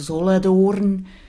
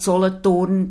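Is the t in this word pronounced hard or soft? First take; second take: soft; hard. First: The t is pronounced soft and lenis. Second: The t is pronounced hard and strong. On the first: This is the typical local way of saying it. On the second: This is the speaker's own way of saying it.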